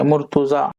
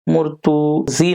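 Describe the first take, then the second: First: The word ends in an 'aa' vowel. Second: The word ends in an 'ee' vowel. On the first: The speaker calls it right. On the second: The speaker calls it wrong.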